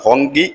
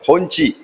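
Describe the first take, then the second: First: The middle consonant is a hard 'k' sound. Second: The middle consonant is a 'ch' sound. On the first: Some people say it this way. "ഹോങ്കി എന്നാണ് ചിലർ പറയുന്നത്" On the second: This is the form used in this talk. "ഹോഞ്ചി എന്നാണ് ഇപ്പൊ ഞാൻ പറഞ്ഞു"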